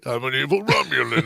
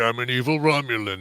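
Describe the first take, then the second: First: The villain voice is between big and small. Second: The villain voice is small and held back.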